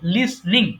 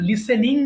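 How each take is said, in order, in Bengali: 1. শব্দটায় দুটো দফা, মাঝে কোনো স্বরধ্বনি নেই। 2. শব্দটায় তিনটা দফা, মাঝে একটা স্বরধ্বনি। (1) "এটা কিন্তু লিসনিং হবে" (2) "আমরা এই উচ্চারণটা অনেক আছে ভুল করি"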